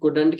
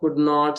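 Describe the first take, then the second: First: It is said as one contracted word. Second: It is said as two separate full words.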